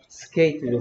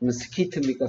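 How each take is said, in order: First: The vowel sounds like 'ay'. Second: The vowel sounds like 'ee'. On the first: The speaker calls it right. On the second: The speaker calls it wrong.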